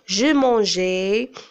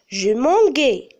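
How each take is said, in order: First: The g is a soft sound, as in 'measure'. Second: The g is a hard sound, as in 'go'. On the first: The speaker calls it right. "je dois prononcer le son G" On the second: The speaker calls it wrong. "Mais non, c'est faux"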